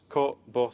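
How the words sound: It is said in a Northern English accent.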